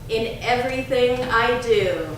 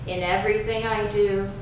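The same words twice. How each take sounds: First: It is said in a strong, loud voice. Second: It is said in a softer, quieter voice. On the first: "first in a strong voice" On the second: "Now a little softer"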